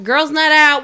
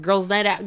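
First: Shouted higher and louder party cheer; giddy party girl. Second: Said in the usual way. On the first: Acted. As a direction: yell it like a night out starting. Party cheer, second take shouted.

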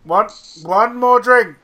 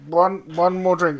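First: Put-on louder, higher drunk pleading; mock drunk insistence; drunken insisting. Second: Said in the usual way. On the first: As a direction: insist loudly like a tipsy lad. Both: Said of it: "I'm like".

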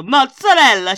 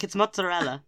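First: 'Mozzarella' in an exaggerated English way, louder; mock the English saying of 'Mozzarella'; English mozzarella. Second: 'mozzarella' with Italian 'ts' and a rolled r; Italian mozzarella. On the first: Housemate mocking English people who say 'Mozzarella' the English way. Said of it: "when they say Italian words". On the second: Retold or imitated. Italian housemate correcting 'mozzarella' with Italian 'ts' sound. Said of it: "my Italian housemate".

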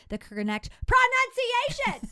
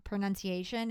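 First: "pronunciation" sung out much higher, louder and slow; hammed-up announcer stress on "The correct pronunciation!"; overdone inflection. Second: Said in the usual way. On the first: Shown as a demonstration. Fixing her voiceover, she hams up "The correct pronunciation!". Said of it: "That was a lot of inflection". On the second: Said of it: "if I come back in with the correct pronou".

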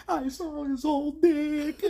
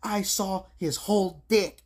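First: Very high, slow fake sob voice; mock crying. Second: High, loud and slow mock voice; imitating the waitress. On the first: Movie woman crying about the flasher, hammed-up sob. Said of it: "but she was crying". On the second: Waitress describing the flasher, slow high mock voice. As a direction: drag it out like a shocked girl. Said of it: "She's like".

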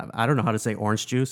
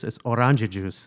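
First: Said in the usual way. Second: "orange juice" as "orangia jus", Italian-American vowels; grandmother's pronunciation. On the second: Shown as a demonstration. Grandmother's way of saying orange juice, Italian-tinged pronunciation. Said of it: "That's how my grandmother said it".

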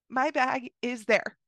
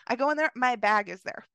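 First: "My bag is there" said slowly, stressing "My"; slow emphatic repeat. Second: Said in the usual way. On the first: Real, not acted. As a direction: savour the repeat slowly and land hard on "My".

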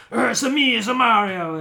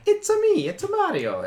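First: Gruff New Yorker Mario, loud; Lou Albano. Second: Squeaky falsetto Mario, very high at the start; Charles Martinet. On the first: Imitating the old cartoon Mario, gruff and loud. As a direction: growl it out like a rough New Yorker. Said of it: "he was the gruff New Yorker". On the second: Showing Mario's voice of today, high sing-song chirp. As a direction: chirp it like the cartoon plumber. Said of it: "since Martinet has been doing it". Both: Acted.

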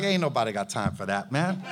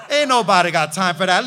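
First: Very low, soft, quick brush-off; dismissive prophet. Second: Laughing brush-off. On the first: Prophet brushing off the proud general, deep and dismissive. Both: Retold or imitated. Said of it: "And Elijah was like".

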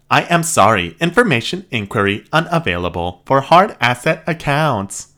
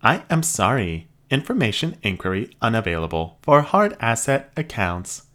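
First: Loud, blaring robot repeat; robot cranks its volume up; louder robot voice. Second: High, even robot voice; polite machine receptionist. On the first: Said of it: "Raising volume level now". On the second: Robot refuses. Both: Acted.

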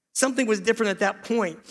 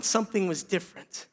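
First: Said in the usual way. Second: Said softly, much quieter, letting it sink in; hushed. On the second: Shown as a demonstration. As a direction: drop the voice to a near hush on this line.

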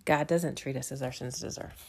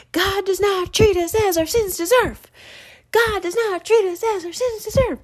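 First: Softer, lower, to herself; quiet inner thought. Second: Put-on high, loud child shouting out a window; little boy yelling. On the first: Real, not acted. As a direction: think it quietly in awe. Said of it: "I thought". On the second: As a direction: proclaim it like a toddler to the street. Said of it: "he's yelling out the window".

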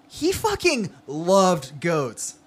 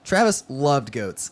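First: Slow, drawn-out stress on "fucking" and "loved"; emphatic. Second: Said in the usual way. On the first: A narrator's reading. Narrator insisting how much Travis loved goats, emphatic on "fucking loved". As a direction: punch "fucking", then stretch "loved" out slowly. Restates the line with heavy emphasis.

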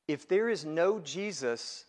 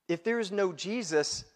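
Both takes have the same delivery.

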